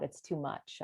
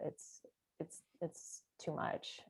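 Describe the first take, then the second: First: Said in the usual way. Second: Slow, breathless whisper of "too much". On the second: Retold or imitated. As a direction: whisper it as if overwhelmed. Eigen gedachte herhaald, stiller.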